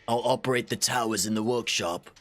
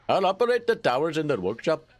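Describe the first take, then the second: First: It is read without an Indian accent. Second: It is read with a put-on Indian accent.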